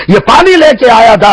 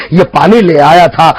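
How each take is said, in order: First: پانی لے کے lifted higher; insistent repeat. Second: Said in the usual way. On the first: Acted. [name] explaining to his brother, insistent on پانی لے کے. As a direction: push پانی لے کے up in pitch.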